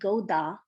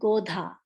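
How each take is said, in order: First: The d is plain, with no breath after it. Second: The d is followed by a puff of breath. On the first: The speaker calls it wrong. "I'm not saying Goda" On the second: The speaker calls it right. "I'm saying Godha"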